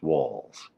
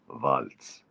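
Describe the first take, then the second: First: The word ends with a soft z sound. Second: The word ends with a sharp ts sound. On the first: "That's how it's pronounced" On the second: "in German you'd say Waltz. The Z is a is pronounced like a ts"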